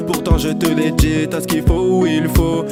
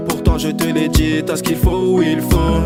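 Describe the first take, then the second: No difference in how they are said.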